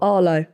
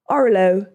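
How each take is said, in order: First: The name is said in a standard accent. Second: The name is said in a Bristolian accent.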